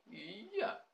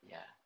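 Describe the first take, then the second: First: The word is said on a high pitch. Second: The word is said on a low pitch. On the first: It contradicts the negative statement. "Tapi kalau nada tinggi" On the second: It confirms the negative statement as true. "Lain halnya kalau nada rendah"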